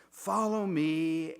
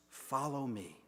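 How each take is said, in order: First: Louder, slow drawn-out invitation; slow call. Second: Soft, quiet invitation on a sigh; sighing breath. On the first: Jesus calls his flock to follow, slow earnest call. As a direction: lean in and call it slowly. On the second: Jesus calls each of us, soft sighing breath. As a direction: breathe it out gently. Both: Retold or imitated. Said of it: "speaks like a sighing breath".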